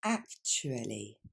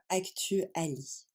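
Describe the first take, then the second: First: "Actually" slowly as "AK-chu-a-ly", lower; slow, low model of English "Actually" with a "ch" sound; correct English pronunciation. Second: "actually" as French "ak-tu-a-li"; wrong French-style pronunciation. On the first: Teacher shows learners the right way, careful English pronunciation. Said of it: "La bonne prononciation, c'est la première". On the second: Teacher shows learners what not to say, French-style mispronunciation. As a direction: say "actually" with French vowels, ending in a clear "li". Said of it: "Vous n'allez pas dire". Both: Shown as a demonstration.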